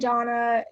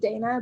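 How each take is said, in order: First: The first vowel is a broad 'ah' sound. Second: The first vowel is an 'ay' sound. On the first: "the Brits, they love to call me Donna" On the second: "but it is Dana"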